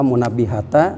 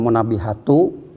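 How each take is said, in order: First: The word ends with an a vowel. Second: The word ends with an u vowel. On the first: "jangan pula munabbihata" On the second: "dibacanya jangan munabbihatu"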